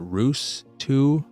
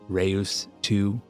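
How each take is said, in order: First: The name rhymes with 'shoes'. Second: The name rhymes with 'Deus'. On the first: "Some may pronounce it Roos two" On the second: "like Deus Ex"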